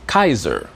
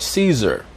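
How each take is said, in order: First: The word begins with a hard 'k' sound. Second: The word begins with a soft 's' sound. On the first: This is the claimed ancient Roman reading of the name. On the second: This is the usual English reading of the name.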